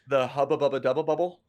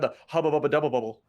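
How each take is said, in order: First: The phrase is said more slowly. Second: The phrase is said quickly. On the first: The speaker calls it wrong. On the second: The speaker calls it right.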